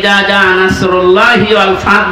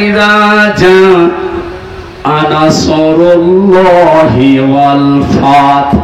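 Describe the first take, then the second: First: The s is plain, said without rounded lips. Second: The s is heavy, said with rounded lips. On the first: When the eagle comes. The speaker calls it wrong. "বলেন সিন দিয়ে" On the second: When God's help comes. The speaker calls it right. "একটু মুখ গোল করে পড়বেন"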